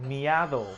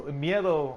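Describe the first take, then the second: First: "miado" said with an open "a", mee-AH-doh; mispronounced. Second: "miedo" said with a clear "ie", mee-EH-doh; correct Spanish. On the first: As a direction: say "miado" the wrong way on purpose. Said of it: "when you say it". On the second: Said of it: "obviously fear". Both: Shown as a demonstration.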